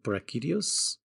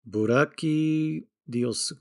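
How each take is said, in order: First: The name is said with English-style pronunciation. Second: The name is said with Japanese-style syllables.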